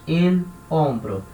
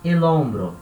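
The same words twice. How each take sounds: First: The two words are said slowly with a pause. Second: The two words run together without a pause. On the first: The speaker calls it wrong. "nenhum nativo vai falar assim pausadamente" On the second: The speaker calls it right. "Ele vai juntar uma coisa na outra"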